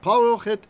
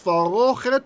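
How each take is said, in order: First: The word begins with a hard p sound. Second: The word begins with a soft f sound. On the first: The speaker calls it wrong. "removes the weak dagesh" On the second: The speaker calls it right. "The reason it's farochet and not parochet is the begad kefat rule"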